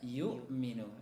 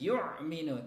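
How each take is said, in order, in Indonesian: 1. Hamzah diucapkan ringan dan biasa saja. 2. Hamzah ditekan kuat, seperti ain. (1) "tapi biasa saja" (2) "jangan sampai ditekan ya, sehingga yang lahir adalah huruf ain"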